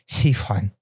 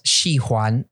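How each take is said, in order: First: It is said with an older-style pronunciation. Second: It is said with a standard pronunciation. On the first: "she would say Xi Huan. It's like this older person pronunciation" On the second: "instead of Xi Huan"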